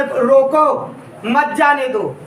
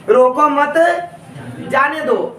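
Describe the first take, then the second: First: रोको, then a break before मत जाने दो; pause after रोको. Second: रोको मत run together, pause, then जाने दो; रोको मत as one unit, जाने दो set apart after a pause. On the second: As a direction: join मत to रोको, then break before जाने दो. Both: Shown as a demonstration. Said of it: "आवाज में परिवर्तन".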